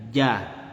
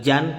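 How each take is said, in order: First: The syllable ends on the vowel, no n. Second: The syllable ends with an n sound. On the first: The speaker calls it right. "tapi ja" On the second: The speaker calls it wrong. "bukan lagi jan"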